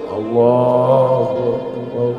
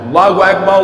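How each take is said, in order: First: It is said in a soft, slow voice. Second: It is said in a loud, booming voice.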